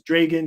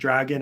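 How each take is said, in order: First: The first vowel is a long A sound. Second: The first vowel is a short A sound.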